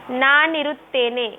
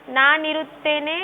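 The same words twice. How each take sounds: The two takes are said the same way.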